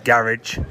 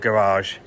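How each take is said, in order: First: It is said with a British pronunciation. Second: It is said with an American pronunciation. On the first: The speaker calls it right. "it's garage" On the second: The speaker calls it wrong. "it's not garage"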